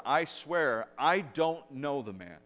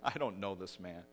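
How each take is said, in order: First: Louder acted protest, slowing on the denial; boisterous louder denial. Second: Understated denial, not actually shouted; retold first denial. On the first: Preacher voices Peter's second denial, boisterous and louder. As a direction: swear it loudly and emphatically, as if retelling. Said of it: "a little more boisterous and a little louder". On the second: Preacher retells Peter's first denial to servant girl, understated. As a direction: deny it firmly at an ordinary volume. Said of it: "Peter just shouts".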